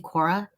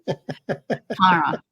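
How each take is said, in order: First: The name is said plainly, without nasal twang. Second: The name is said nasally, with a twang. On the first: This is how the speaker pronounces her own name. The speaker calls it right. "the way it's supposed to be said" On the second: This is how her family says her name. The speaker calls it wrong. "It's like nasally. Cara, Cara, like that"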